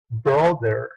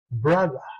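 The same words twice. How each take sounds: First: The final r sound is clearly pronounced. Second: The final r is dropped, ending in schwa. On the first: "Un americano pronunciaría así" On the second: "británico pronunciaría brother"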